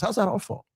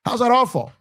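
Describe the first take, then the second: First: Said in the usual way. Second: Rising outrage on the repeat. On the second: Real, not acted. Repeats question, then louder.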